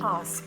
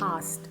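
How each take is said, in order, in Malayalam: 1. k ശബ്ദം ഉച്ചരിക്കുന്നില്ല. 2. k ശബ്ദം ഉച്ചരിക്കുന്നില്ല.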